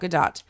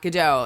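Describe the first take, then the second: First: The name is pronounced the Israeli way. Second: The name is pronounced the French way. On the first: The speaker calls it right. "but she is actually Israeli. So um, it's Gal Gadot" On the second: The speaker calls it wrong. "the inclination is to pronounce the name like it's French"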